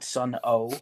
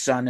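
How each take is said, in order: First: The name is said as two syllables. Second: The name is said as one syllable. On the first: The speaker calls it wrong. "and not Sun O" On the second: The speaker calls it right. "the band is pronounced Sun"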